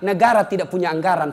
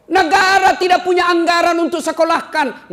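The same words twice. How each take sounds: First: Said in the usual way. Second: High, loud rhetorical cry; full-voiced pulpit exclamation; impassioned preacher's shout. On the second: Real, not acted. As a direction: thunder it out to the whole hall. Preacher thunders, then repeats it calmly.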